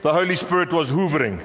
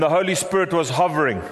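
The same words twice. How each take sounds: First: "hoovering" with a long oo in the first syllable; Zulu friend's pronunciation. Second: Said in the usual way. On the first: Retold or imitated. Preacher jokingly quoting a Zulu friend, "hoovering" said with an oo. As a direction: stretch "hoovering" to open like "hoover". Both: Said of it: "As my Zulu friend says".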